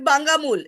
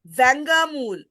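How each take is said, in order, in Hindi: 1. शब्द B ध्वनि से शुरू होता है। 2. शब्द V ध्वनि से शुरू होता है। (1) "Not Bangamul" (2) "It's Vangamul"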